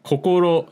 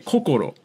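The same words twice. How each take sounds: First: Tokyo pitch, not falling high, low, low. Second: Pitch goes high, then low, then low. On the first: This is how it is said in Tokyo. "that's how they'd say it in Tokyo" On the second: This is how it is said in Kansai. "In Kansai, they'd actually say kokoro ... high, low, low"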